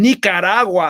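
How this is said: The word is said with a Spanish accent. The speaker calls it wrong.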